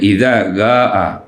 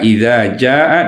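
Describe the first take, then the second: First: The verb starts with a hard G sound. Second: The verb starts with a soft J sound. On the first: "dibaca dengan iza gaa" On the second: "jaa iza jaa"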